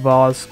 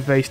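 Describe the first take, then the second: First: The word is said in a British accent. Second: The word is said in an American accent. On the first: The speaker calls it wrong. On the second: The speaker calls it right.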